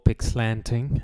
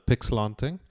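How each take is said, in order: First: It is said with an American pronunciation. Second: It is said with a non-American pronunciation.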